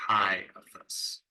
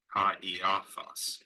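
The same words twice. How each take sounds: First: "chi" as one syllable rhyming with "eye"; vowel team run together. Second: "Ka, e, a, thos" with alpha and iota as two syllables; vowels pronounced separately. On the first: Teacher showing the mistaken reading, "chi" as a single diphthong. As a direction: glide alpha into iota in "chi, a, thos". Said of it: "as the vowel team and pronounce it chi". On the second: Teacher showing the diaeresis, "Ka, e, a, thos" with vowels split. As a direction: keep "Ka" and "e" apart as two vowels. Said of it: "need to be pronounced separately". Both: Shown as a demonstration.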